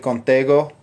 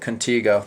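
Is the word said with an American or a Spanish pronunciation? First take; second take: Spanish; American. First: It is said with a Spanish accent. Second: It is said with an American English accent. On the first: "I speak Spanish. It's actually Contigo. Is uh, I think how it should be pronounced" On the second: "the Americanized pronunciation"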